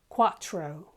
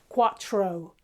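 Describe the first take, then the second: The two takes are said the same way.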